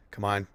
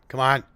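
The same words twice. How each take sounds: First: Said in the usual way. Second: Loud frustrated plea; urging the stuck game on loudly; pleading with a machine. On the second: Real, not acted.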